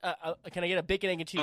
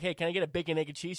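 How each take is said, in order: First: It is said flustered, imitating the deli lady. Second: It is said calmly in his own voice.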